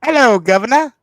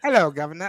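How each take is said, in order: First: Loud, high mock-British greeting; big, showy British accent. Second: Lighter mock-British greeting; casual put-on British accent. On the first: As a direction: put on a hammy British accent, pitched up. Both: Shown as a demonstration. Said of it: "All right, British accent".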